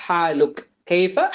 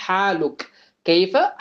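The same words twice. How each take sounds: The two takes are said the same way.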